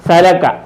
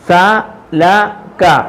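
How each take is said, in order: First: It is read fast as one word. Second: It is read slowly, syllable by syllable.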